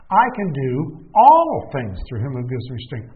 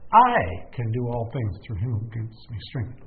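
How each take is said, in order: First: The word "do" carries the emphasis. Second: The word "I" carries the emphasis.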